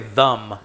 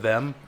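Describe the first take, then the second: First: The vowel sounds like 'uh', as in 'thum'. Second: The vowel sounds like 'eh', as in 'then'. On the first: "I say them as well" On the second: "instead of them"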